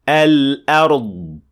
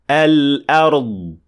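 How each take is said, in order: The two takes are said the same way.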